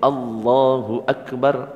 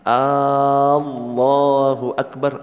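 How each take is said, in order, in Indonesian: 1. Vokal pertama pada Allahu pendek. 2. Vokal pertama pada Allahu panjang. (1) "Kalau A-nya pendek" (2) "artinya apakah Allah Maha Besar?"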